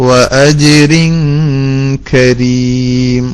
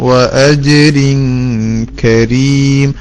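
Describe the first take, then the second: The two takes are said the same way.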